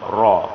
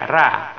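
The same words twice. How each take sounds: First: The r sound is heavy and thick. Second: The r sound is light and thin. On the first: The speaker calls it right. "Ra baris atas, hukum bacaan tebal" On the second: The speaker calls it wrong. "tidak boleh ra. Kalau kita baca ra salah"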